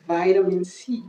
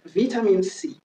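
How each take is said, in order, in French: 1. Ça se dit avec un accent américain. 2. Ça se dit avec un accent britannique. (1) "c'est les Américains qui disent ça" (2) "La prononciation british"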